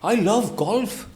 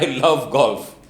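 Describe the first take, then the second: First: It is said in a surprised way. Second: It is said in a happy way.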